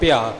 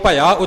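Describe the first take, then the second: First: The word is squeezed into bhiaa. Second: The word is said fully as bhaiaa. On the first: The speaker calls it wrong. "ਇੱਥੇ ਆਮ ਗਲਤੀ ਸੁਣਨ ਵਿੱਚ ਆਉਂਦੀ ਹੈ, ਭਿਆ ਬੋਲ ਜਾਂਦੇ ਨੇ" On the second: The speaker calls it right. "ਇਉਂ ਭਇਆ ਉਚਾਰਨ ਹੋਵੇਗਾ ਜੀ"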